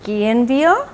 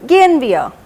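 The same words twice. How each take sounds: First: It is said with a questioning tune. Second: It is said with a statement tune. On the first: The speaker asks whether to leave. "So it's more like a question" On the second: The speaker proposes leaving now. "चलो चलते हैं"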